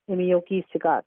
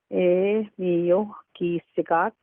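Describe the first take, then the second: First: The phrase is said quickly and fluently. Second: The phrase is said slowly and carefully. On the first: "the fluent pronunciation" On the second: "the slow pronunciation"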